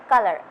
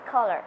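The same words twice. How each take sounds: First: "color" in a British accent, first vowel as in "cut". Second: "color" in an American accent, rounder "aw" in the first syllable. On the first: Student showing an interviewer both accents, British "color". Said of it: "In British accent, it's color". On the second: Student showing an interviewer both accents, American "color". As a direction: say "color" American-style, like "caw-ler". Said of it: "in American accent, it's color". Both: Shown as a demonstration.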